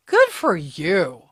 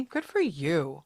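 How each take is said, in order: First: "Good for you" louder and drawn out, GOOD punched; slow, punched "Good for you"; emphatic praise. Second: Said in the usual way. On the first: Real, not acted. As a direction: lean hard on "Good", stretch the rest. Praise repeated with more emphasis.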